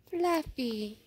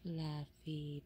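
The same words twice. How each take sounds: First: Louder, higher call of the name. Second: Low, soft, tender call of the name. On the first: Calling after the leaving pet. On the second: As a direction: murmur the name gently. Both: Real, not acted.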